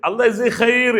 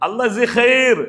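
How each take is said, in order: Both takes have the same delivery.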